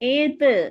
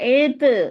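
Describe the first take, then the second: First: The final consonant is released with a bouncing echo. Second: The same.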